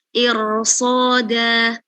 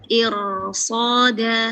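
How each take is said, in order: Both takes have the same delivery.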